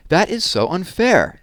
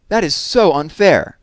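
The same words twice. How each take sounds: First: High, loud, slow complaint; angry whine. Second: High, much louder, slow outburst; angry whine, louder. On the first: Evan protests to Mom about sharing a class, angry and slow. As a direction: stretch it out like a furious kid. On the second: Evan glares at Jessie and protests again, even louder. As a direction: let it burst out, even harder this time. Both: Acted.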